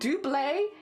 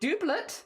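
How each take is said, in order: First: It is said with a French pronunciation. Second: It is said with an American pronunciation. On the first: "double in France, which is where the word originated" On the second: "doublet or something like that in America"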